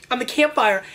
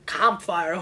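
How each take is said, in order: First: Said in the usual way. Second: "Campfire" with a lower, foreign-sounding vowel, "kahm-fire"; odd accidental accent. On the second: Pretend. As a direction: let "Campfire" slip into a stray accent. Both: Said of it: "What accent did I just get there?".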